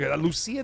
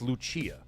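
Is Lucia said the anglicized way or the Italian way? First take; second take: anglicized; Italian. First: The name is said with anglicized pronunciation. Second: The name is said with Italian pronunciation. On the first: The speaker calls it wrong. "It doesn't sound right" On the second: The speaker calls it right. "in Italian, it's pronounced Lucia"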